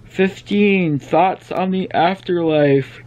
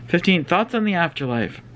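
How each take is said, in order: First: Slow, yawning through the words; stretched out by a yawn. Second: Said in the usual way. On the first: Real, not acted. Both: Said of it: "stop yawning".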